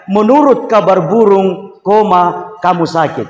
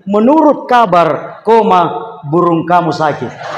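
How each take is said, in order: First: Slow "Menurut kabar burung", spoken "koma", then "kamu sakit"; group "kabar burung" together and break before "kamu sakit"; slow dictation, comma break after "burung"; pause after "burung". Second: Slow "Menurut kabar", spoken "koma", then "burung kamu sakit" in one phrase; slow dictation, comma break after "kabar"; pause after "kabar". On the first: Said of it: "Komanya saya letakkan di belakang kata burung". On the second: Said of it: "komanya saya majukan ke depan". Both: Shown as a demonstration.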